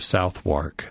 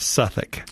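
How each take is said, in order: First: The name is said as spelled, with 'w'. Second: The name is said short, like 'Suffolk'. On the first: The speaker calls it wrong. "don't go to London and tell them that you want to go to Southwark" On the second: The speaker calls it right. "it's Suffolk"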